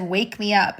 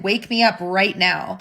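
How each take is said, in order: First: Said in the usual way. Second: Slow insistent command. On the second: Retold or imitated. Sleeping husband insists to his wife, slow and firm. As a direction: drag out "Wake me up right now." slowly and firmly.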